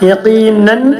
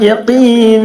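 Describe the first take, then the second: First: The word ends with an n sound. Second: The word ends on a long vowel. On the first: The reading continues past this word. "തെൻവീൻ ഫത്ത് ആകുമ്പോൾ" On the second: The reading stops on this word. "നിർത്തുമ്പോൾ"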